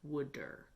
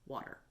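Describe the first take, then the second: First: It is said in a Philadelphia accent, like wooder. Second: It is said in a standard American accent. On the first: "South Jersey slash Philadelphians peoples have, and they pronounce the word water like wooder" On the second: "the correct way to pronounce the word water is water"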